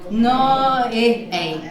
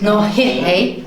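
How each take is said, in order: First: The verb starts with a bare vowel sound. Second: The verb starts with a soft h sound. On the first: The speaker calls it wrong. "it's a little bit difficult there with two vowels coming together" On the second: The speaker calls it right. "we're going to put a soft H in front of I and O"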